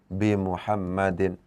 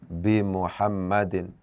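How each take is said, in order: The two takes are said the same way.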